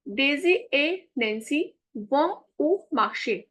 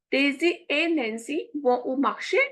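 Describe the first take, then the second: First: Said in the usual way. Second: Daisy et Nancy vont au marché with the pitch rising at the end like a question; Daisy et Nancy vont au marché as a yes-no question, lifted on et and rising at the end; question intonation. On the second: Shown as a demonstration. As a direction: ask it, letting marché lift. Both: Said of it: "This is the question, intonation".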